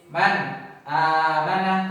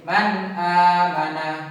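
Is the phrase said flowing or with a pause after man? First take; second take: paused; flowing. First: There is a break between man and amana. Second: The phrase flows without a break. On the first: The speaker calls it wrong. "tidak boleh berhenti seperti" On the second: The speaker calls it right. "Jadi harus mengalir"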